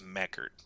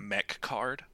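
First: The name is said without an extra k sound. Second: The name is said with a k sound before card. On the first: The speaker calls it right. "but it's Mechard" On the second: The speaker calls it wrong. "I want to pronounce it Mechcard"

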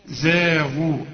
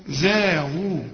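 No difference in how they are said.

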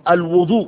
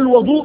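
First: The first vowel is a 'u' sound. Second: The first vowel is an 'a' sound. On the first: It means the act of ablution. "بالضم" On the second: It means the water used for ablution. "بالفتح"

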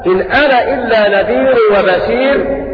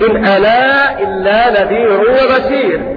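First: The final vowel of 'ana' is short. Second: The final vowel of 'ana' is lengthened. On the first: "له فيها القصر يعني عدم المد" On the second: "وله فيها المد أيضا كالمد المنفصل تماما"

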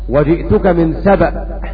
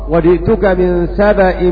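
First: Saba ends in a hamza with no vowel. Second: Saba ends in a hamza followed by a vowel. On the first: "بسكون الهمزة" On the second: "وقرأ باقي القراء"

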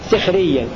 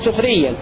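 First: The first vowel is i. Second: The first vowel is u. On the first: "بكسر السين في الموضعين" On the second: "سخريا بضم السين"

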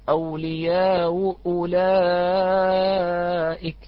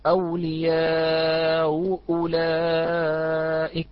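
First: The long vowel is held only briefly. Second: The long vowel is held for a medium length. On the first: "والوجه الآخر" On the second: "يجوز له التوسط ويجوز له القصر"

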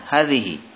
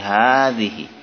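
First: The first vowel is short. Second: The first vowel is long. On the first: The speaker calls it wrong. "bukan hadhihi" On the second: The speaker calls it right. "dibaca dengan panjang 2 harokat"

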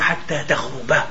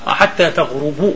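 First: The verb ends with a short a vowel. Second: The verb ends with a short u vowel. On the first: The sunset would be the aim of the walk. The speaker calls it wrong. "وليس" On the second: The sunset is just a time, not the walk's aim. The speaker calls it right. "بتضلها ايش بترفع"

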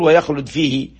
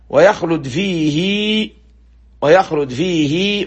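First: The final vowel of fihi is cut short. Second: The final vowel of fihi is lengthened. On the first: The speaker calls it wrong. "ما تقول ويخلد فيه وتختصر" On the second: The speaker calls it right. "تمد الكسرة كأنها ياء"

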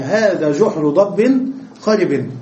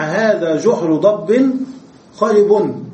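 First: The last word ends with an i vowel. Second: The last word ends with a u vowel. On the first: The word takes its case from the neighboring word. "الجحر مرفوع والخرب مجرور" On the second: The word describes the hole. "كلمة خرب صفة لماذا؟ للجحر، وهذا مرفوع وهذا مرفوع"

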